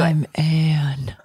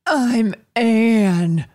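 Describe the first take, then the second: First: It is said in a sultry, sexy voice. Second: It is said in a plain, unsexy voice.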